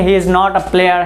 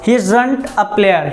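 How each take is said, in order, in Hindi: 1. 'Is not' दो पूरे शब्दों की तरह बोला जाता है। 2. 'Is not' एक ही शब्द में छोटा हो जाता है। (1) "तो इज नॉट बोलेंगे तो क्या बोलेंगे" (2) "लेकिन इज नॉट से बेस्ट क्या रहेगा, इजंट"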